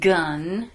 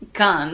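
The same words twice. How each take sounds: First: The word is said with an English accent. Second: The word is said with a Finnish accent. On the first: "gun is so not familiar, very unfamiliar to our Finnish speaking people" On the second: "if you really want to um, speak like a Finnish person"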